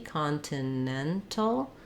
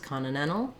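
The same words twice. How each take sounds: First: It is said slowly with the T clearly pronounced. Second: It is said fast with a T dropped. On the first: "that makes me say this T" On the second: "or if I'm going fast"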